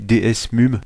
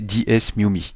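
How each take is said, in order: First: The name ends on a consonant, without a vowel. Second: The name ends with an added 'ee' vowel. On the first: The speaker calls it wrong. "j'ai dit D S M U M" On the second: The speaker calls it right. "mais en fait c'est D S M U M I"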